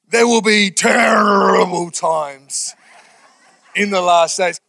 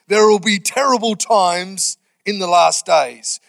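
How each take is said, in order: First: It is read in a dramatic, old-preacher voice. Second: It is read in an ordinary, plain voice.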